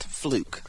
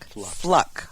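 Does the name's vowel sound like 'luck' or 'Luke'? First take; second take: Luke; luck. First: The vowel sounds like the one in 'Luke'. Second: The vowel sounds like the one in 'luck'. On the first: The speaker calls it wrong. "not Fluke" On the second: The speaker calls it right. "which is the proper pronunciation"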